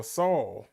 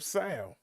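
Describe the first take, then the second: First: Saul said like "Sawl"; standard pronunciation. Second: Saul said like "Sal"; regional pronunciation. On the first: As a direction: say Saul with a rounded "aw" vowel. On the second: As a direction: say Saul with a flat front "a", as in "pal". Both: Shown as a demonstration. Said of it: "however you pronounce it".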